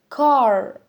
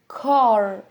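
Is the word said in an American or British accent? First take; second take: American; American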